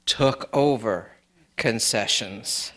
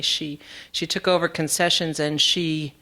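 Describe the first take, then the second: First: "took over concessions" said slowly and lower, each word weighted; slow emphatic repeat. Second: Said in the usual way. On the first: Shown as a demonstration. Speaker at a memorial stresses Alice's role with a slow emphatic repeat. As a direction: lean on "over", then drop low and slow on "concessions". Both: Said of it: "took over concessions (slow repeat)".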